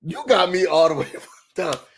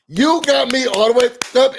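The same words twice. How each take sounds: First: Laughing through the line. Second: Louder, higher repeat; indignant exclamation. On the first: Host reacting to the peasant insult, laughing. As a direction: chuckle it out. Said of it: "first take, laughing". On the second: Host reacting to the peasant insult, indignant. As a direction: punch it out indignant. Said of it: "second take, louder". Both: Real, not acted.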